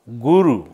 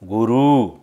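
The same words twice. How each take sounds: First: The final vowel is short. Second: The final vowel is long. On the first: The speaker calls it right. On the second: The speaker calls it wrong.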